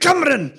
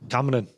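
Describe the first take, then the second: First: Said angrily in a Scottish accent. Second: Said calmly in a Scottish accent. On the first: "in an angry Scottish accent?" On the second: "say Cameron in a Scottish accent"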